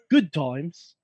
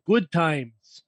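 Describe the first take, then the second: First: It is said in an English accent. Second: It is said in a Midwestern American accent. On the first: "pilgrims probably just had English accents" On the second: "I thought that was Midwest"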